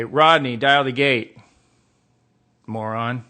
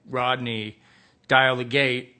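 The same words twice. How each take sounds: First: Loud, insulting order to a colleague; exasperated command. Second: Said in the usual way. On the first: Acted. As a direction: bark it at someone slow to obey. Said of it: "I would say". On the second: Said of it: "if my tag was, uh, like".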